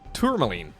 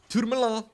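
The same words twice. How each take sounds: First: It is said with a plain English accent. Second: It is said with a French accent.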